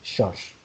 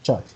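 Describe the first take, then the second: First: The word starts with an SH sound. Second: The word starts with a CH sound. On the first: "they can pronounce it as shush instead of ch" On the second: "like church"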